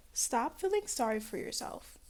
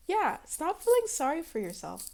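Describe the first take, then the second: First: Said in the usual way. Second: "stop feeling sorry for yourself" declared louder and higher. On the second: Shown as a demonstration. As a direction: announce it loudly to everyone. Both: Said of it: "I need to say it very loudly".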